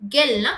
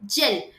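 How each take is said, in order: First: The word starts with a hard g sound. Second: The word starts with a j sound. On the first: The speaker calls it wrong. "கெல்ன்னா கிடையாது" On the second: The speaker calls it right. "ஜி-இ-எல் ஜெல்"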